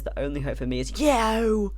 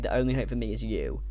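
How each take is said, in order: First: It is said in an exaggerated, over-enunciated voice. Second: It is said plainly in a normal voice. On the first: "he has like the emo voice ... he really over enunciates it" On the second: "he doesn't say"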